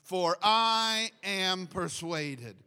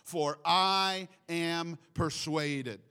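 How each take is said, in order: First: It is said with more warmth and passion. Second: It is said in a calm, plain way. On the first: "With a little bit more love this time" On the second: "Let's just say that with Paul"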